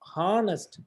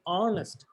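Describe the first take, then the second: First: The word begins with an audible h sound. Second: The word begins directly with the vowel sound. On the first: The speaker calls it wrong. "we shouldn't pronounce honest" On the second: The speaker calls it right. "We have to say honest. The you know H is silent"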